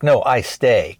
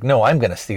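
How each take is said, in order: First: Lightly mocked Korean-accented English. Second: Said in the usual way. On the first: Customer mocking how the clerk talks, light mock Korean accent. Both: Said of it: "he kinda mocks how the guy talks".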